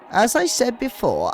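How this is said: It is said in the character's put-on voice.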